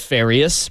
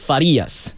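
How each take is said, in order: First: The name is said with an American accent. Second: The name is said with a Latino accent.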